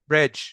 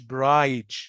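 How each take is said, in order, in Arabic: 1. الصوت قصير وسريع. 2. الصوت طويل وممدود. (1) "بيكون شورت، بيكون سريع" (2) "مش"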